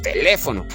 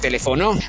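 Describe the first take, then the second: First: The stress is on the second syllable. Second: The stress is on the fourth syllable. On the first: The speaker calls it right. "Si llevara la fuerza de voz en le" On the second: The speaker calls it wrong. "Y si llevara la fuerza de voz en no"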